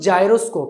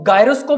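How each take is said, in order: First: The word begins with a j sound. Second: The word begins with a hard g sound. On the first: The speaker calls it right. "जो correct pronunciation है वो जायरोस्कोप है" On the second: The speaker calls it wrong. "कुछ लोग इसको गायरोस्कोप भी पढ़ते हैं"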